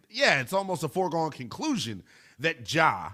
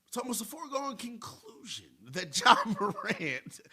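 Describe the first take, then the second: First: Said in the usual way. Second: Higher, softer put-on voice breaking into a laugh; hushed, high-pitched mock impersonation, half laughing; Brian Windhorst. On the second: Radio host doing his best reporter impersonation, high, soft and giggly. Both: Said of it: "do my best Brian Windhorst impersonation".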